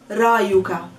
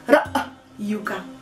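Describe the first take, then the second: First: The r runs straight into the y. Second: A glottal stop separates the r and the y. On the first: The speaker calls it wrong. "Not ra'yuka. No. There's a hamza" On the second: The speaker calls it right. "Stop between the R and the Y"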